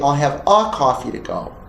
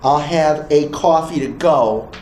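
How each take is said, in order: First: The article is a short reduced 'uh' sound. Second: The article sounds like the letter name 'ay'. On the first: The speaker calls it right. "you say" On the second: The speaker calls it wrong. "Instead of saying"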